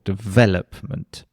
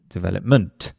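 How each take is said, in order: First: Development with VEL stressed and drawn out slowly. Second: Development stressed on the wrong syllable. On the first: Teacher repeating the correct word stress: development, stressed on VEL. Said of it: "it has the stress on the second syllable". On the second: Teacher showing learners a wrongly stressed development. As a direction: misplace the stress in development so it sounds strange. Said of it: "really strange". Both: Shown as a demonstration.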